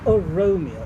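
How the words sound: The opening 'O' is skipped over lightly. The speaker calls it right. "very lightly skip over the first O"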